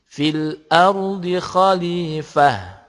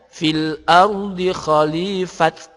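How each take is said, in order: First: The last word ends with an h sound. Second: The last word ends with a t sound. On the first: The speaker calls it right. "tetapi menjadi fil ardi khalifah, jadinya ha" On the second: The speaker calls it wrong. "juga bukan dibaca fil ardi khalifat"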